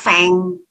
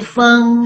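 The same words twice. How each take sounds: First: The vowel is an open e sound. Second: The vowel is a central schwa sound. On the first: The speaker calls it wrong. "Jangan dibaca feng" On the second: The speaker calls it right. "Jadi feng ya"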